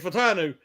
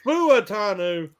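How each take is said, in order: First: One syllable of the name is left out. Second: Every syllable of the name is pronounced. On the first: "I leave a syllable out" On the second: "It's Fuatanu"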